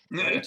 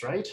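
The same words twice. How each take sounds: First: "Right?" pushed louder with a higher rising pitch; pressing right. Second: Said in the usual way. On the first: Acted. Repeating to the silent party, "Right?" louder and rising. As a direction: lean on "Right?" as if begging agreement. Asks table again, pressing.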